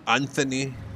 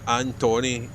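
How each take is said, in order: First: The middle consonant is a soft 'th' sound. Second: The middle consonant is a plain 't' sound. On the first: The speaker calls it wrong. "It's not Anthony" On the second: The speaker calls it right. "It's Antony. A N T O N Y"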